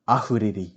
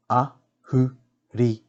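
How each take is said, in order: First: Said in the usual way. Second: "Ahuriri" slowly split as A, hu, ri, ri; slow teaching breakdown of "Ahuriri"; broken into syllables. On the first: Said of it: "pronounce these words correctly". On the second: Shown as a demonstration. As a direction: sound out all four syllables separately. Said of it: "break down the words first".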